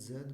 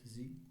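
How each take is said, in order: First: The letter is said as zed. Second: The letter is said as zee.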